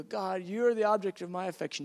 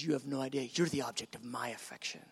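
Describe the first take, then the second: First: Said in the usual way. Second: Much lower, hushed reply; tender voice of God. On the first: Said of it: "I go". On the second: Acted. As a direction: sink deep and soft to return the affection. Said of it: "He goes".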